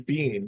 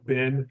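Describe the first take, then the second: First: The vowel is long, as in 'bean'. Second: The vowel is short, as in 'Ben'. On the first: "they'll say Bean" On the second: "instead of saying, you know, Ben"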